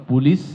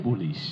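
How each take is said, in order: First: পুলিশ ending in a crisp English s; English s sound. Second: পুলিশ ending in a soft Bengali শ; Bengali pronunciation. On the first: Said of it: "পুলিশ যখন ইংরেজিতে". (ইংরেজি এস দিয়ে পুলিশ) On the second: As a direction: say পুলিশ the Bangla way. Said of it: "কিন্তু বাংলায় পুলিশ". (Bangla শ দিয়ে পুলিশ) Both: Shown as a demonstration.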